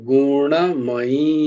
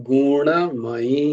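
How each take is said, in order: Both takes have the same delivery.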